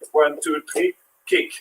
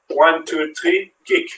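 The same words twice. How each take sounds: First: Soft count, then kick jumps much higher; quiet count, fling kick up high; kick leaps high. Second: Counted out, kick lifted a little; coach count. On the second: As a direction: count the beats, a small lift on kick. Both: Shown as a demonstration. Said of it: "So now we're gonna play football".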